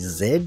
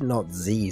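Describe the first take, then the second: First: The letter is said the Canadian way. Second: The letter is said the American way. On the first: The speaker calls it right. "flip back to the Canadian because it is definitely" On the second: The speaker calls it wrong. "you're obviously from the U S A"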